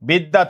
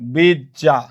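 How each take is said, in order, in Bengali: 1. মাঝের অংশে একটি d, তার পরে y। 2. মাঝের অংশটি দ্বিত্ব jj ধ্বনি।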